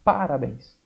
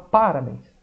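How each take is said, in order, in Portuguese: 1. A tônica está na primeira sílaba. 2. A tônica está na primeira sílaba.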